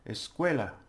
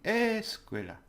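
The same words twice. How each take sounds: First: The stress is on the syllable cue. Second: The stress is on the syllable es. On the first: The speaker calls it right. "when you say it properly" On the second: The speaker calls it wrong. "if I put the stress on the es"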